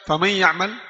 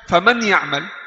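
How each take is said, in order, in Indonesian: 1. Huruf n menyatu dengan ya dengan dengung sengau pendek. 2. Huruf n dibaca dengan jelas, tidak menyatu dengan ya. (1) "sudah idgham, sudah gunnah, tapi gunnah kurang" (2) "izhar ini bukan idgham, salah"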